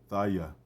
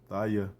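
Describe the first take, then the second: No difference in how they are said.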